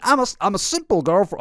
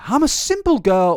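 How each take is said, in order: First: Badly faked American accent; attempted American accent. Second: Said in the usual way. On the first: Commentator reading influencer's old post, failed accent imitation. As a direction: have a shaky go at her American accent. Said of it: "should I do the accent?". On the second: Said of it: "or should I do the accent?".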